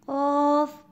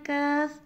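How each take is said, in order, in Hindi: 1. यह अक्षर भारी बोला जाता है, पूरी आवाज़ के साथ। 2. यह अक्षर पतला बोला जाता है, होंठ फैलाकर। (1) "क्या पढ़ना है?" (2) "कौफ को हंसते हुए नहीं पढ़ना। ... बारीक भी नहीं करना है।"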